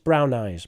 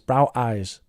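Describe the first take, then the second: First: The m sound is present but light and brief. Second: The m sound at the end of brown is missing. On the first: The speaker calls it right. "It doesn't need to be very strong" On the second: The speaker calls it wrong. "you really need a mm, a bit of a mm there"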